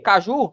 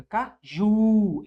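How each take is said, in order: First: Said in the usual way. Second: "Caju" split, with a long drawn-out "ju"; stress on last syllable. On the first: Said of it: "sílaba tônica". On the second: Shown as a demonstration. Teacher locating the tonic syllable, "Caju" drawn out on final "ju". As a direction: say ca, then stretch the stressed "ju" in "Caju". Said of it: "É a última".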